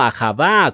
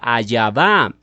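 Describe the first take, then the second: First: The middle consonant is a harsh throaty sound. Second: The middle consonant is a y sound. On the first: "los judíos lo pronuncian como ahavá con J" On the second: "cambian la J por la I y se forma la fonética Ayavá"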